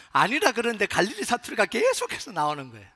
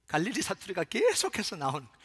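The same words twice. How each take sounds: First: Loud, raised-pitch protest; heated, projected insistence; emphatic outburst. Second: 계속해서 lengthened at moderate volume; stress on 계속해서. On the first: Acted. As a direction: blurt it out louder, stretching 계속해서. Repeats it as heated denial. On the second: Shown as a demonstration. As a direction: draw out 계속해서 for emphasis. Dialect keeps slipping out, first take.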